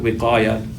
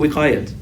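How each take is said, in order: First: The word ends on a vowel without t. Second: The word ends with a clear t sound. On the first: This is the Arabic form of the word. "It's just simply put wiqaya" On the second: This is the Urdu form of the word. "Even in Urdu, wiqayat ... you would just use it as a regular ta"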